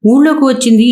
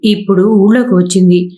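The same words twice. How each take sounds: First: ఊళ్ళోకి pitched higher in mild annoyance; a husband's restrained irritation, voice lifted on ఊళ్ళోకి; mild angry husband. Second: Said in the usual way. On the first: Acted. (ఊళ్ళోకి పై స్వల్ప కోపంతో) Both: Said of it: "అన్నాడు కోపంతో".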